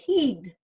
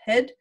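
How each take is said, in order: First: The word is said with an Australian vowel. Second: The word is said with a New Zealand vowel. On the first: "Whereas the Australians, it's up here, they say heed" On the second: "here's the New Zealand HID vowel"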